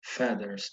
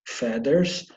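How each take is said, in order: First: "Feathers" said as "fedders", a clear D sound. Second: "Feathers" again, louder, D sound, rising. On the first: Teacher models the English word for pupils. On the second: Teacher drills the word for the class. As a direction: repeat "Feathers" with a firm D. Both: Shown as a demonstration. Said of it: "lembrando o som de D".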